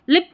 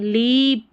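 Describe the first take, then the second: First: The vowel is a short 'i' sound. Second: The vowel is a long 'ee' sound. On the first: The speaker calls it wrong. "लिप नहीं" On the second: The speaker calls it right. "बड़ी ई की जैसे"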